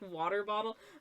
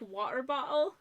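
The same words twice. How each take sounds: First: The t sounds are said as quick taps. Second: The t sounds are replaced by glottal stops. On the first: This is the way used when living in Canada. "instead of" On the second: This is the way picked up after moving to the UK. "I do have a tendency to insert glottal stops into words"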